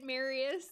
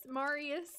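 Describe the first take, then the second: First: "Marius" with an "air" sound, MAIR-ee-us; Marius, first way. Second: "Marius" with a broad "ah", MAH-ree-us; Marius, other way. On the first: Showing chat her usual "Marius", MAIR-ee-us. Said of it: "that's how I say it". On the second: Showing chat her other "Marius", MAH-ree-us. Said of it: "sometimes I say Marius". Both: Shown as a demonstration.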